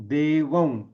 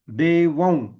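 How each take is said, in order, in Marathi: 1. शब्दाचा शेवट अनुनासिक व ध्वनीने होतो. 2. शब्दाचा शेवट अनुनासिक व ध्वनीने होतो.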